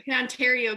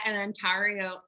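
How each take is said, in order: First: Said in the usual way. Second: Ontario in a slight Colorado accent. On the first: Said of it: "sorry, that's my Colorado accent coming out". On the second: Real, not acted. Host slips on the Canadian place name, Colorado accent. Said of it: "that's my Colorado accent coming out".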